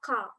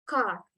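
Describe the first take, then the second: First: The final R is faint, barely heard. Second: The final R is clearly pronounced. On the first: "Tapi kalau British itu R-nya itu dia nggak begitu jelas, semu ya" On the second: "Kalau American itu mungkin masih jelas car, car, R-nya masih jelas"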